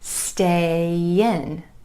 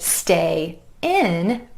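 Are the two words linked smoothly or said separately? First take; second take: linked; separate. First: The words are joined by a gentle y glide. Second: The two words are said separately.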